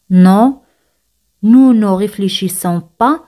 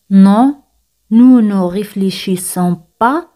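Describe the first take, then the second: No difference in how they are said.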